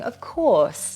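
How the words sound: It is said warmly and gently. The speaker is kind and reassuring. "If you say it warmly, it is kind and reassuring"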